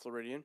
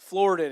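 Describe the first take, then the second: First: The word is said with four syllables. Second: The word is said with three syllables. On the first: The speaker calls it wrong. "I'm saying it wrong" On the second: The speaker calls it right. "excuse me"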